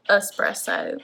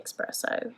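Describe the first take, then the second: First: Espresso said "es-PRESS-oh"; correct pronunciation. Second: Espresso said "ex-PRESS-oh"; pronounced with an X. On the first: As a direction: start Espresso with "es", no k sound. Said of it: "It's supposed to be Espresso". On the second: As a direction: add a k sound to the start of Espresso, "eks". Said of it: "I say Espresso". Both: Shown as a demonstration.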